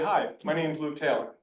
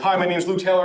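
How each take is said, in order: First: It is said slowly, with a pause. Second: It is said quickly, without pausing.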